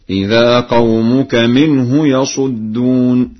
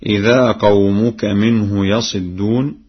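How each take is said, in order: First: Slow recitation, "يصدون" with sad on short u; Warsh reading. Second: Said in the usual way. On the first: Shown as a demonstration. Teacher demonstrates Warsh's reading, chanting "يصدون" as yasudduna. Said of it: "قرأ ورش بضم الصاد هكذا".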